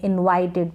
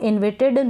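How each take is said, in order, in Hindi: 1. बीच का स्वर लंबा 'eye' ध्वनि है। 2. बीच का स्वर छोटा 'i' ध्वनि है। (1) "इनवाइटेड पढ़ेंगे" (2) "इसको इन्विटेड ना पढ़ें"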